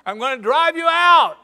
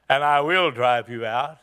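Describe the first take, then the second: First: Loud, high, insistent yell; shouted threat. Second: Calm vow. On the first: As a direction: hurl it back at the mockers. David repeats his threat loudly. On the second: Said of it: "the tenor of the whole thing changed". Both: Acted.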